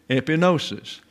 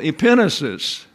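First: The stress is not on the second syllable. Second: The stress is on the second syllable. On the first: "I know everybody wants to say epinosis. That's easy to say" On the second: "But the accent is on the second syllable"

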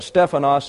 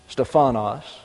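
First: The stress is on the first syllable. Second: The stress is on the second-to-last syllable. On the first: The speaker calls it right. "The correct emphasis is on the first syllable in the Greek" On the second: The speaker calls it wrong. "we tend to emphasize the penultimate syllable"

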